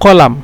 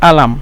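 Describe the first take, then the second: First: The word starts with a q sound. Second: The word starts with a glottal stop. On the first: This is the standard form. "শুদ্ধ ভাষা হলো কলাম" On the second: This is the Egyptian form. "মিশরীরা বলে আলাম"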